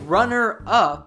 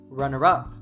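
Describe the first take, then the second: First: The two words are said separately, unlinked. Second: The words are reduced and linked together smoothly. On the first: "instead of saying runner up" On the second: "Lord Farquaad says runner up. Natives do this all the time"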